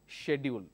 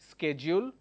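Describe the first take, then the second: First: The word is said with a British pronunciation. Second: The word is said with an American pronunciation. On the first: "British English pronounces this as schedule" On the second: "American English pronounces this as schedule"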